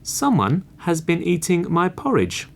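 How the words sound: It is said in a middle-sized, medium voice.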